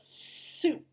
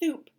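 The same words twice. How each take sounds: First: The first s sound is a clear hiss. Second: The first s sound is lisped and unclear. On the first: The speaker calls it right. "they go soup" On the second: The speaker calls it wrong. "make sure they they don't go soup"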